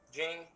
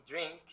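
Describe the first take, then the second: No difference in how they are said.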